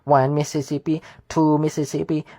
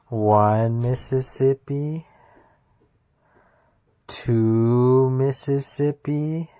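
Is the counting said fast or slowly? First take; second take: fast; slowly. First: The counting is said fast. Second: The counting is said slowly.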